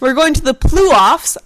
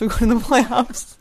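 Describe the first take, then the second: First: The first syllable of playoffs sounds like 'plu'. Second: The first syllable of playoffs sounds like 'play'. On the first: The speaker calls it wrong. "not plu-offs" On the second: The speaker calls it right. "I'm being told it's playoffs"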